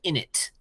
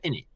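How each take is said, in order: First: The final T is fully released. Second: The final T is cut off short. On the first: The speaker calls it wrong. "you don't say in it" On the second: The speaker calls it right. "you go in it ... the T is not fully pronounced"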